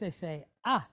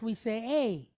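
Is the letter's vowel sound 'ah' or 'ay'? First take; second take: ah; ay. First: The vowel is a pure open 'ah' sound. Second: The vowel is a gliding 'ay' sound. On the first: This is the Spanish pronunciation. "but in Spanish, they say A" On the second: This is the English pronunciation. "So in English, we say A"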